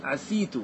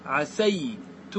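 First: عسيت said with a kasra, "ʕasitu", short and rising; kasra reading. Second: عسيت said with a fatha, "ʕasaytu", slow and drawn out; fatha reading. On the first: Teacher giving students the kasra variant of عسيت. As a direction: say عسيت quickly with an i on the s. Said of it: "ولك أن تقول". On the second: Teacher drawing out عسيت with a fatha for his students. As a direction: say عسيت slowly with an open a on the s. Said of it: "فلك أن تقول". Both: Shown as a demonstration.

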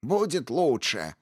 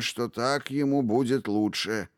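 First: Higher, slow mocking echo; mocking mimicry. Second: Calm, firm statement. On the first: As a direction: mimic him with spite. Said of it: "Зло передразнила его предводительница". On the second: Acted. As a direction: say it with firm certainty. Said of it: "твёрдо заявил старый волшебник".

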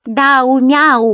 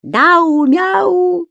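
First: High, loud teasing name-call; mock the name like a cat's meow; taunting. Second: Very high, loud sung taunt; sing-song chant. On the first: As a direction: creature teasing Daume. Creature mocks Daume's name. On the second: Acted. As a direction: sing the name like a playground rhyme. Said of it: "распевая на ходу".

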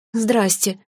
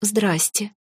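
First: Slightly raised little peep; squeaked greeting. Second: Small, tentative greeting; timid. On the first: Fairy spotted by the huge dragon, squeaking. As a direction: squeak it out, caught in the act. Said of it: "снова пискнула я". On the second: Fairy peeking out at the mother dragon, timid. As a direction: say it cautiously, hardly daring. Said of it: "робко произнесла я". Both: A narrator's reading.

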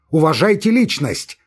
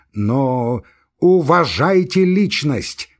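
First: Raised, louder demand for respect; indignant demand. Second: "уважайте личность" drawn out very slowly, each word weighed; slow, cutting repeat. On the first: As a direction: insist on it, voice up and strained. Laevsky's agitated demand. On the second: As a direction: cut in and spell out "уважайте" slowly. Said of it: "перебил его Лаевский". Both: Acted.

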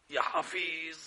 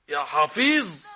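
First: Quiet dismay. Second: يا حفيظ exclaimed loudly, falling at the end; loud dismay. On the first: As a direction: murmur it in dismay. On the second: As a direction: cry it out in alarm. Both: Acted. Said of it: "same words said again louder".

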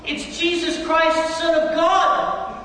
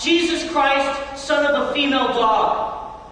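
First: Slow, high, loud proclamation of Christ; old man shouting back the correction; retold correcting shout. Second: Slow, stretched mock yell of a curse; half-hearted imitation of a furious yell; retold golfer's curse. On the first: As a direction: shout the true name back triumphantly. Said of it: "I screamed back at him". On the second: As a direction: act out the golfer shouting after a bad slice. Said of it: "he screamed out as loud as he could".

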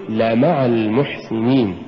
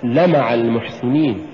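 First: "لمع" with la set apart and fully voiced; correct لمع. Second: "لمع" rushed together as one short word; mispronounced لمع. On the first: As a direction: say لمع المحسنين carefully, la-ma'a. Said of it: "قل". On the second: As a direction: say لمع المحسنين with the la swallowed into ma'a. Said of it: "ولا تقل". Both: Shown as a demonstration.

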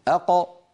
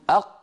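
First: أق with a bouncing release; qalqala bounce. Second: أق closed with no release; stopped qaf. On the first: Teacher demonstrating qalqala on qaf. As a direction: let أق echo. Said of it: "يقول". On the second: Teacher contrasting a closed qaf. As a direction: shut أق tight. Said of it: "بدلًا من أن يقول". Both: Shown as a demonstration.

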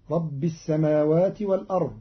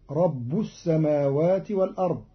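First: Said in the usual way. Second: رب ending in u, "rabbu"; Qalun reading. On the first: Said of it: "قرأ قالون كلمة ربي برفع الباء". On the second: Shown as a demonstration. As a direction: put a damma on the ba of رب. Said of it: "برفع الباء". (رب برفع الباء)

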